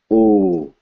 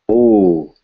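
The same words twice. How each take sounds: The two takes are said the same way.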